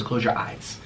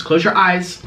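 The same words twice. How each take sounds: First: Whisper. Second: Said in the usual way. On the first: Real, not acted. Playing Simon Says with viewers, whispered. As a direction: close your eyes whispered, softer.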